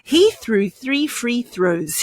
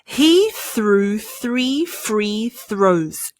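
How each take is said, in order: First: It is said fast. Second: It is said slowly.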